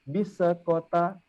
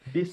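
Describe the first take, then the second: First: The s sound ends with an added bounce. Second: The s sound stops cleanly without a bounce. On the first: The speaker calls it wrong. "Kita tidak pernah menyebut" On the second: The speaker calls it right.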